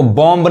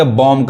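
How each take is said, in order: First: बॉम्ब with an audible final B; B pronounced. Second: बॉम्ब ending on M, final B left silent. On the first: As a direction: release a B after the M in बॉम्ब. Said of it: "बॉम्ब नहीं कहेंगे". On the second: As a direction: stop बॉम्ब at the M sound. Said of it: "बॉम्ब कहेंगे". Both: Shown as a demonstration.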